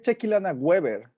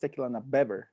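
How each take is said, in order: First: The second word starts with a W sound. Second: The second word starts with a B sound. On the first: This is how the other person says it. "You say Tequilana Weber" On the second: This is how the speaker says it. "I say it's Tequilana Beber with a B"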